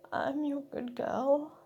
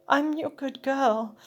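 First: It is mumbled quietly. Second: It is said loudly.

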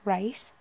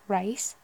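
First: It is said in a Liverpool accent. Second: It is said in a Liverpool accent.

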